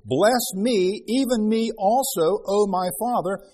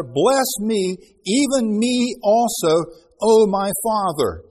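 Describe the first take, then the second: First: A milder, slower plea; pleading. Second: Loud, slow, pleading cry to his father; bitter cry. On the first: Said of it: "Esau lifted up his voice and wept". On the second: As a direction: beg loudly and slowly, as if crying out. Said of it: "He cried with a great and exceeding bitter cry". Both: Acted.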